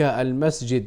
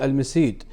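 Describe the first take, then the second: First: The middle consonant is a j sound. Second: The middle consonant is a y sound. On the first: "يقصد بذلك المسجد" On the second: "مبدلا الجيم ياء"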